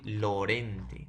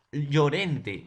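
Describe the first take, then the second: First: Lorente starting on a plain l; single l sound. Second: Llorente with ll as a y sound, loud; loud Llorente, starting on the "ll" digraph sound; ll as one sound. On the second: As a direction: say Llorente as "Yorente", projected. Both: Shown as a demonstration. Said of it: "la segunda no va a tener un sonido".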